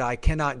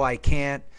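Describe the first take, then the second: First: The negative is said as a full form. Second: The negative is said as a contraction.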